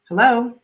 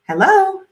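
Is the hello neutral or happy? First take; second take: neutral; happy. First: It is said in a neutral tone. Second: It is said in a happy tone.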